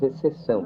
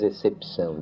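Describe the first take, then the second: First: No 'p' sound is pronounced before the 'ç'. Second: A 'p' sound is pronounced before the 'ç'. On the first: "diz exceção" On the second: "A gente não diz excepção"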